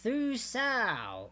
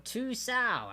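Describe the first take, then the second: First: The word begins with a th sound. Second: The word begins with a plain t sound. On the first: The speaker calls it wrong. "I still did it wrong" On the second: The speaker calls it right. "so I pronounce it properly"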